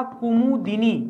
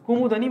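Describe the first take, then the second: First: कुमुदिनी said slowly as ku-mu-di-nee, with the i after d; कुमुदिनी in four clear syllables, the right form; कुमुदिनी spelled out slowly with the di; correct pronunciation. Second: कुमुदनी said as ku-mud-nee, with no i sound after d; कुमुदनी in three syllables, the wrong form; कुमुदनी with the i dropped before नी; wrong spelling said aloud. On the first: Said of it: "तो सही था". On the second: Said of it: "मैंने बताया था गलत है". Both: Shown as a demonstration.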